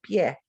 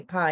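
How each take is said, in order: First: PIE as "pyeh"; Spanish pronunciation. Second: PIE as "pye", rhyming with my; English pronunciation. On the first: Teacher contrasts vowel pairs, Spanish pronunciation. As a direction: say "pie" with a y glide into eh. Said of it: "In Spanish, I say". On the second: Teacher contrasts vowel pairs, English pronunciation. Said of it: "In English, you say". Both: Shown as a demonstration.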